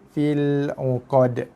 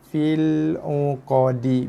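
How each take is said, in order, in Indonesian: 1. Kata terakhir berakhir dengan konsonan mati. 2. Kata terakhir berakhir dengan vokal pendek. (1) "Bila kita wakaf ataupun berhenti, kita baca dengan fil uqad" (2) "Bacaan asalnya dibaca dengan fil uqadi"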